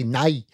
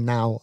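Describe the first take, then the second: First: The vowel is pronounced like 'nay'. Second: The vowel is pronounced like standard 'now'. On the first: "like Northern Irish people, if they say nay" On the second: "they're trying to say now"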